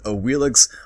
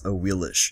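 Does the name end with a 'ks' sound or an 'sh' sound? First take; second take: ks; sh. First: The name ends with a 'ks' sound. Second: The name ends with an 'sh' sound. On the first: The speaker calls it wrong. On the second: The speaker calls it right.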